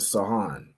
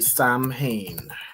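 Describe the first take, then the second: First: It is said without an m sound, like Sow-in. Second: It is said with an m sound, like Sam-hain. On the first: The speaker calls it right. "Sohan, I think it's pronounced" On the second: The speaker calls it wrong. "it's not exactly Samhain"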